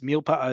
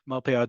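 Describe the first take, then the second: First: The first syllable is said as 'mil'. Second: The first syllable is said as 'mal'. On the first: The speaker calls it right. "Milpa'a is a word" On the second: The speaker calls it wrong. "malpe'a does not exist"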